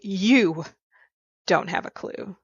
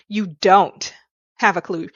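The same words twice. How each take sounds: First: The stress falls on the word 'you'. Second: The stress falls on the word 'don't'.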